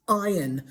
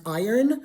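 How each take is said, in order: First: "iron" said EYE-un, no r; British iron. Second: "iron" said EYE-urn with the r; American iron. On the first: Teacher contrasting British iron, eye-un. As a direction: say "iron" without the r. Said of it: "it's pronounced iron". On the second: Teacher modelling American iron, r after the vowel. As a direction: sound the r in "iron". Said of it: "In American English, it's pronounced". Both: Shown as a demonstration.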